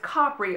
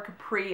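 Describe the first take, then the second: First: The name is pronounced the Italian way. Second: The name is pronounced the American way. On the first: "but it's Capri over there" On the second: "as Americans would say it"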